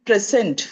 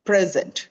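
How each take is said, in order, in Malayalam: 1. ഊന്നൽ രണ്ടാമത്തെ അക്ഷരത്തിലാണ്. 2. ഊന്നൽ ആദ്യ അക്ഷരത്തിലാണ്. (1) "അതിന്റെ സ്ട്രെസ് സെക്കൻഡ് സിലബിളിലാണ് വരുന്നത്" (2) "ഫസ്റ്റ് സിലബിളിൽ വരുമ്പോൾ"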